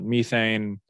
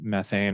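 First: It is said in a British accent. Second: It is said in an American accent.

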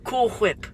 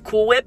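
First: Whip starts with a breathy hw sound. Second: Whip starts with a plain w sound. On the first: "He pronounces it with, like, an H, so it's like" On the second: "instead of Cool Whip"

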